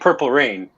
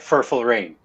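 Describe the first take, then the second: First: The first word begins with a P sound. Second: The first word begins with an F sound. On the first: This is the usual way to say it. "instead of saying purple rain" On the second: Someone else habitually swapped these sounds. "he would say something like furful rain"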